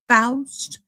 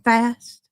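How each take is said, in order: First: The name is said as Faust, unlike fast. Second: The name sounds like the word fast. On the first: The speaker calls it right. "That's a proper way to say that name" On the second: The speaker calls it wrong. "instead of fast"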